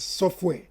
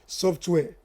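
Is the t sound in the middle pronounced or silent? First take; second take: silent; pronounced. First: The t sound in the middle is silent. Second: The t sound in the middle is pronounced. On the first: "the real pronunciation of software is software. That is, the letter T is not pronounced" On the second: "But see, we are in Africa, I beg"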